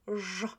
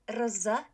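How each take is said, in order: First: A single buzzing zh sound is made. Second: An r sound is followed by a z. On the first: The speaker calls it right. "it's ż. It's one sound" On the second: The speaker calls it wrong. "A lot of students pronounce R Z as rz. It's not rz"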